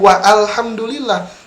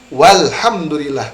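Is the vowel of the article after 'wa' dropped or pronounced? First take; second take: pronounced; dropped. First: Wa is followed by a separate 'a' vowel. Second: Wa links straight into 'l' with no vowel. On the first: The speaker calls it wrong. "bukan wa alhamdulillah" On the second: The speaker calls it right. "maka alifnya tidak akan dibaca"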